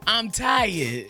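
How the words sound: It is said imitating Shay Moore's voice.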